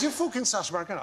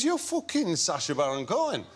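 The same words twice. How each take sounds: First: Higher-pitched northern English bloke; second try at a Grimsby accent. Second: Put-on wrong-sounding northern English accent; imitated northern English bloke, accent off; botched Grimsby accent. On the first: Retold or imitated. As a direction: imitate an insistent Grimsby pub local. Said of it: "sorry, the accent is totally wrong". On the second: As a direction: have a poor go at a Grimsby accent. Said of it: "the accent is totally wrong".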